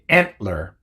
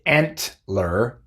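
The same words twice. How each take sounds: First: The T is pronounced as a glottal stop. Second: The T is pronounced as a released T. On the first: The speaker calls it right. "pronunciando la T con una oclusión glotal" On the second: The speaker calls it wrong. "No se dice antler"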